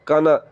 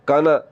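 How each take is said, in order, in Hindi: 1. पहला स्वर छोटा करके बोला जाता है। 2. पहला स्वर छोटा करके बोला जाता है।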